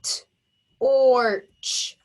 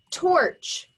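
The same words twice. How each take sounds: First: TORCH split into "t" and a long "orch"; segmented phonics demo of T-orch; tapped out. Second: Said in the usual way. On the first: Shown as a demonstration. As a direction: sound out torch as T, then ORCH, with gaps. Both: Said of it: "Tap it".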